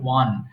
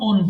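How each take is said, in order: First: It starts with a 'w' sound, like 'wan'. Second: It starts with a plain vowel, like 'on'. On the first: The speaker calls it right. "এটা সঠিক উচ্চারণ হবে ওয়ান" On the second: The speaker calls it wrong. "এক্ষেত্রে আমরা ওন ওন বলি, ওন হবে না"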